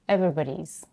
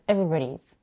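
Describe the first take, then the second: No difference in how they are said.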